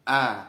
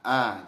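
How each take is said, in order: No difference in how they are said.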